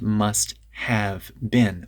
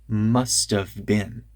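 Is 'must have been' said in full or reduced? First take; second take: full; reduced. First: Each word is pronounced fully and separately. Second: The words are reduced and run together quickly. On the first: The speaker calls it wrong. "Not must have been" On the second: The speaker calls it right. "If I speak a little bit quickly, then it becomes"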